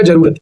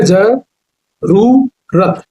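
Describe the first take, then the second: First: जरूरत quickly, with a short u; short-vowel mispronunciation. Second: जरूरत very slowly as za, roo, ra-t; syllable-by-syllable long oo. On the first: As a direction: show the wrong, unstretched जरूरत. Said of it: "not like this". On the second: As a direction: stretch the oo in जरूरत. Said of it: "जरूरत ऐसे लिखाता है". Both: Shown as a demonstration.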